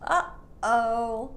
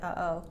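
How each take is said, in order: First: The throat closes briefly between the two syllables. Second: The syllables run together with no throat closure. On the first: The speaker calls it right. "there's a pause in your throat" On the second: The speaker calls it wrong. "If you didn't hold the air in your throat in the middle"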